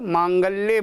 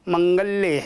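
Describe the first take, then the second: First: The first vowel is a long 'aa'. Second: The first vowel is a short 'a'. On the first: The speaker calls it wrong. "काफ़ी लोग इसको त्रुटिपूर्वक बोलते हैं" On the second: The speaker calls it right. "उसमें आ की मात्रा नहीं है"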